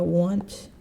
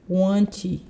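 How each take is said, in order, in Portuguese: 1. A palavra termina limpa na consoante final. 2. Um som de vogal extra vem depois da consoante final.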